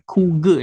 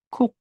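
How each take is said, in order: First: The word ends with an added vowel after g. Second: The word ends on a short final k sound. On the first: The speaker calls it wrong. "Jadi bukan kuge ya" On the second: The speaker calls it right. "Nah ini dibacanya adalah kuk"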